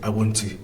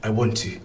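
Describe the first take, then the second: The two takes are said the same way.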